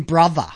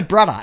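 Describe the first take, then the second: First: "brother" pronounced roughly as "bruvva"; clarified pronunciation of "brother". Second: "brother" pronounced roughly as "brudda"; imitated pronunciation of "brother". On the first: Shown as a demonstration. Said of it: "as in brother". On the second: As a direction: say "brother" with a hard d-like middle. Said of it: "That's how they speak".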